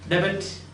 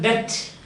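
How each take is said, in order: First: The b in the word is sounded. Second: The b in the word is silent. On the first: The speaker calls it wrong. "not a debit. ... No" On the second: The speaker calls it right. "You pronounce it as debt"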